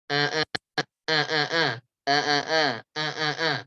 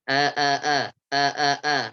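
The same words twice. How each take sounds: First: Eh eh with the nose pinched shut; pinching nose. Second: Said in the usual way. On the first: Shown as a demonstration. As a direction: say eh, eh holding your nose closed. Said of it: "saya tutup hidungnya". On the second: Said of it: "saya ucapkan biasa".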